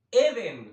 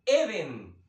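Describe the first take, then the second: First: "Eden" louder, stress on the first E, not on the second. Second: Said in the usual way. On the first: Shown as a demonstration. Preacher teaching the congregation Eden, stress on the first E. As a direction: hit the opening E of "Eden" hard. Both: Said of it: "tiene el acento en la primera E".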